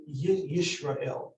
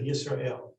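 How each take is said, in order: First: "Yisrael" said as Yishrael, with sh. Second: "Yisrael" with a plain s sound; standard S. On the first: Teacher showing Hungarian-descent pronunciation, sh in "Yisrael". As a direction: swap the s of "Yisrael" for sh. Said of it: "pronounce these opposite". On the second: Teacher giving the standard form for contrast, s in "Yisrael". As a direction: say "Yisrael" as Yis-ra-el, s not sh. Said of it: "instead of Yisrael". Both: Shown as a demonstration.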